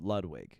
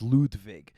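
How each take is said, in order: First: The name is said the American way. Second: The name is said the German way. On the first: "full fucking you know Americanization" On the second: "the German pronunciation's"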